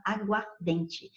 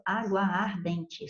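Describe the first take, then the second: First: "aguardente" run together with a single A; fused word. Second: "água ardente" said slowly as two words, both A's sounded; two words apart. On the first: Teacher shows students the real fused pronunciation. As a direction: say "aguardente" as one smooth word. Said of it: "você só fala aguardente". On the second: Teacher shows students the unfused words, slowly separated. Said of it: "porque você não pronuncia dois As". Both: Shown as a demonstration.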